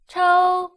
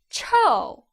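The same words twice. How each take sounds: First: The pitch stays high and level. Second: The pitch falls sharply from high. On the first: It means slap. "with the first tone, flat tone" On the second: It means stinky. "fourth tone"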